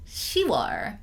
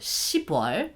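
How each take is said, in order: First: The first syllable ends softly with no p. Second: The first syllable ends in a hard p sound. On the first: The speaker calls it right. "another one is 시월" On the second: The speaker calls it wrong. "the sound is way too strong"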